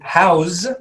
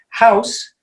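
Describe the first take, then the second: First: The final sound is a voiced buzz. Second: The final sound is a voiceless hiss. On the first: It is the verb meaning to shelter someone. "if we pronounce it house, we're using it as a verb" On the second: It is the noun for a building. "House is a noun"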